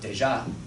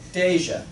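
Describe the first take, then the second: First: The stress is on the second syllable. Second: The stress is on the first syllable. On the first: The speaker calls it wrong. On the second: The speaker calls it right.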